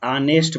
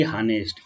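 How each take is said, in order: First: ऑनेस्ट with a silent h, starting on an open o sound; ऑनेस्ट spoken the right way, h dropped; correct pronunciation. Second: हानेस्ट with a sounded h at the start; हानेस्ट, the mistaken version with a voiced h; wrong pronunciation. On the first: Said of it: "एच O N E S T को ऑनेस्ट पढ़ते हैं". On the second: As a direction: say हानेस्ट as "honest" with the h pronounced. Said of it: "ना कि हानेस्ट". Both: Shown as a demonstration.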